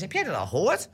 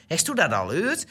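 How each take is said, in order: First: Said in the usual way. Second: Mother asking in Gronings with formal u, "Heeft u dat al gehoord" as "hest u dat al heurd". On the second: Retold or imitated. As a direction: imitate mother speaking Gronings to the older sister. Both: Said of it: "tegen mijn broer en ik werd Nederlands gesproken".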